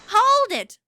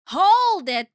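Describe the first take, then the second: First: It is shouted with great enthusiasm. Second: It is said more calmly, with less force.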